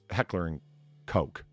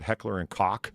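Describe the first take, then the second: First: The last word sounds like 'coke'. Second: The last word sounds like 'cock'. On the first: The speaker calls it right. "it's heckler and coke, in case you're curious" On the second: The speaker calls it wrong. "people who pronounce it heckler and cock"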